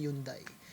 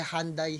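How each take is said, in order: First: Hyundai said as "YUN-dai"; Korean-style pronunciation. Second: Hyundai said as "HAN-day"; American pronunciation. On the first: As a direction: start Hyundai on a Y, no H. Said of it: "ang pronunciation yata sa Korea". (bigkas-Koreano ng Hyundai, "YUN-dey") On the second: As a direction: open Hyundai with an H, "han-dai". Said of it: "Tawag nila dito sa Amerika". (bigkas-Amerikano ng Hyundai, "HAN-dey") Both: Shown as a demonstration.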